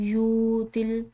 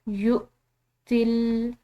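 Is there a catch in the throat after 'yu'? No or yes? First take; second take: no; yes. First: The vowel flows smoothly without a throat catch. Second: A sharp catch in the throat follows the vowel. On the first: "अगर फ़र्ज़ करें कि यहाँ पर हमजा ना हो" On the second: "झटके से अदा करेंगे"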